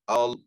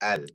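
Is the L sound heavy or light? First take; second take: heavy; light. First: The L is heavy, said with a full mouth. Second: The L is light, said with a thin mouth. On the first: The speaker calls it wrong. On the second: The speaker calls it right.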